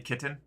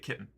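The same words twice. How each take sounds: First: The middle t is fully sounded. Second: The middle t becomes a brief break. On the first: "I don't say kitten" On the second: "It's just like a break"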